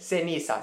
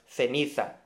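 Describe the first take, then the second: First: The c sounds like a plain s. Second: The c sounds like English th, Spain-style.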